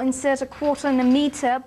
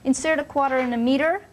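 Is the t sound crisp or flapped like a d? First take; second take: crisp; flapped. First: The t sounds are crisp and clear. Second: The t sounds are flapped, almost like d. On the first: "So I would not say" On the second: "but they would say"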